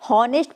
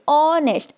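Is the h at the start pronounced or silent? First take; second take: pronounced; silent. First: The word starts with an h sound. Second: The word starts with a vowel, no h. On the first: The speaker calls it wrong. "अगर आप इसे हॉनेस्ट पढ़ेंगे तो आप इसका right answer नहीं जान पाएंगे" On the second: The speaker calls it right. "अब आप इसको सही से प्रोनाउंस करिए"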